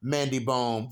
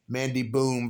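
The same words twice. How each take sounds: First: Bohm said slowly with a long oh vowel, like bome; careful correction, Bohm with an oh sound; slow fix of the name to Bohm; corrected name. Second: First try at the name, Boom with oo; wrong name. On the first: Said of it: "that's how they say it". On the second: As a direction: Boom said like the word boom, with an oo vowel. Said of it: "excuse me, that's how they say it". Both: Shown as a demonstration.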